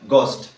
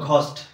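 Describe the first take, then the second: First: The first sound is plain, with no puff of air. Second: The first sound is breathy, with a puff of air. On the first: This is how it is read in Britain or the USA. The speaker calls it right. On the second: This is how it is read in India. The speaker calls it wrong.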